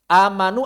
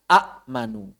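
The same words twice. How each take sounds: First: The first vowel is a long, smooth a. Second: A glottal stop follows the first short vowel. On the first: This is the form as actually recited. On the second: This is the original underlying form.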